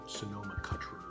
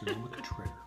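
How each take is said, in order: First: Cutrer is pronounced the English way. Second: Cutrer is pronounced the French way. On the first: The speaker calls it wrong. "Don't call it Sonoma Cutrer, though. People will think you're silly" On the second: The speaker calls it right. "So it's Sonoma Cutrer. Just remember that"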